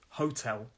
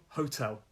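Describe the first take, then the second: The two takes are said the same way.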